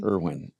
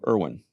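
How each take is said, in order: First: The name is said in a sheepish, ashamed tone. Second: The name is said in a firm, confident tone. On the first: The speaker is embarrassed by the name. The speaker calls it wrong. "just the whole intonation lets you know it was a bad name" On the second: The speaker is proud of the name. The speaker calls it right. "when I said it with confidence"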